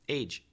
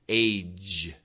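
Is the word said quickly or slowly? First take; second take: quickly; slowly. First: It is said quickly with the final sound cut. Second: It is said slowly with the final sound held. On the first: "now I'll say it quickly" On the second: "if we finish the sound, you'll hear the vibration"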